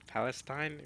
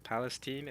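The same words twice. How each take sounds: First: Palestine ending in "-stine", like wine; other people's pronunciation. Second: Palestine ending in "-steen"; usual pronunciation. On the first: Streamer quoting others' Palestine, ending "-stine". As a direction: say Palestine as PAL-es-tine, long i. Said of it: "heard people pronounce it". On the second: Streamer giving his usual Palestine, ending "-steen". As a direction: say Palestine as PAL-es-teen. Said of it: "I always pronounce it". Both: Shown as a demonstration.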